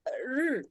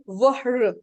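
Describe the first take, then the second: First: Only the r sound is heard, no w. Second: A w sound is heard before the r. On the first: The speaker calls it right. "we say r" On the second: The speaker calls it wrong. "We don't say wahr"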